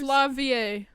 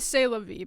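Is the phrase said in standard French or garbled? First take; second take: garbled; standard French. First: The phrase is run together with distorted sounds. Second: The phrase is said with standard French sounds. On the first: The speaker calls it wrong. "I was pronouncing it wrong on purpose" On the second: The speaker calls it right. "It's actually c'est la vie"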